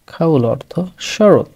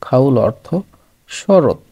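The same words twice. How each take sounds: The two takes are said the same way.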